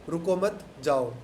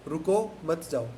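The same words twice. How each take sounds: No difference in how they are said.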